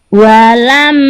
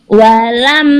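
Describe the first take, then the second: No difference in how they are said.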